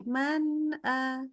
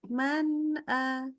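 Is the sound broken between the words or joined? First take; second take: joined; joined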